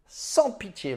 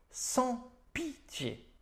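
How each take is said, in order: First: Said in the usual way. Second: Drawn-out high catchphrase. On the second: Acted. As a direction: stretch "Sans pitié" very slowly on a much higher pitch.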